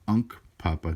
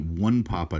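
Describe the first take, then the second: First: The first syllable sounds like 'unk'. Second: The first syllable sounds like 'one'. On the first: The speaker calls it right. "It's the Unk Papa tribe" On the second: The speaker calls it wrong. "the completely inaccurate way"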